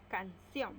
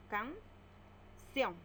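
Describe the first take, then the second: First: Said in the usual way. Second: Canción drawn out slowly into can-ción; syllable by syllable. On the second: Shown as a demonstration. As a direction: split Canción into two slow beats. (Canción separada en sílabas, despacio) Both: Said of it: "Separamos en sílabas".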